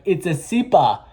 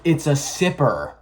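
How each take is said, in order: First: It is said in a non-American accent. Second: It is said in an American accent.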